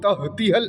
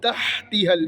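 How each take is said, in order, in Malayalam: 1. h ഒരു ലളിതമായ, നേരിയ ശ്വാസം കലർന്ന ശബ്ദമാണ്. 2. h ഒരു മുറുകിയ ശബ്ദമാണ്, തൊണ്ടയുടെ നടുവിൽ നിന്ന്. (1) "ഹ ആയി പോകരുത്, തഹ്തിഹൽ എന്നായി പോകരുത്" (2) "ഹായാണ്, തൊണ്ടയുടെ നടുക്ക് നിന്നുള്ള അക്ഷരമാണ്"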